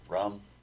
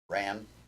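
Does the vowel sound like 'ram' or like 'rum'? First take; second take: rum; ram. First: The vowel is a short 'u' as in 'rum'. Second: The vowel is an open 'a' as in 'ram'. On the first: The speaker calls it right. "Rum actually is how it's pronounced" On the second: The speaker calls it wrong. "spelled R A M"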